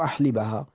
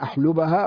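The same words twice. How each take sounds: First: The vowel after the L is i. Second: The vowel after the L is u. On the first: "وكسر" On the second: "بضم اللام"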